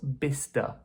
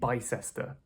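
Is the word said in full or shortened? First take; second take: shortened; full. First: The middle 'cess' part is left out. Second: The middle 'cess' part is pronounced. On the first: The speaker calls it right. "the cess part is kind of deleted" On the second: The speaker calls it wrong. "That's what I think when I read it"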